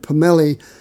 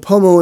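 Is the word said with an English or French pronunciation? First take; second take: French; English. First: The word is said with a French pronunciation. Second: The word is said with an English pronunciation. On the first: "the French word pomelle" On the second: "the anglicized pronunciation"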